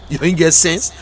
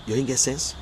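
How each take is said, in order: First: Firm push through "sense"; emphatic scolding. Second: Softer, understated reproach; low-key scolding. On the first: Scolding those showing the boxes, emphatic reproach. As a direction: drive home "sense" with a lifted ending. Same words repeated more forcefully. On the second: Scolding those showing the boxes, low-key reproach. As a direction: toss the reproach out softly. Same words first said softly. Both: Real, not acted.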